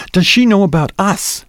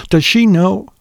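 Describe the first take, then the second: First: High, pressing question with a touch of jealousy; insistent, tinge of jealousy. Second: Said in the usual way. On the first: A narrator's reading. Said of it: "more insistent now, with a tinge of jealousy". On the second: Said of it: "Her voice was more insistent now".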